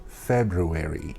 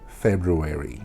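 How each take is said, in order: First: The first r sound is clearly pronounced. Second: The first r sound is clearly pronounced.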